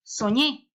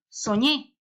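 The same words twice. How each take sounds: First: The stress is on the second syllable. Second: The stress is on the second syllable.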